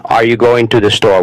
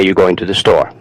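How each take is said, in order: First: Said in the usual way. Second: "You're" reduced to a bare "you", the "are" gone; dropped "are". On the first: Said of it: "instead of". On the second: Shown as a demonstration. Showing learners casual speech, "You're" said as just "you". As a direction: run casually from "You're" into "going" with no R sound. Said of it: "The R disappears".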